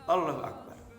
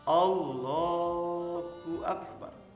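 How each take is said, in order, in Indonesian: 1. Bunyinya diucapkan dengan ceroboh dan tidak jelas. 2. Setiap bunyi diucapkan dengan penuh dan jelas. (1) "mengucapkan seenaknya" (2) "dengan ucapan yang sempurna"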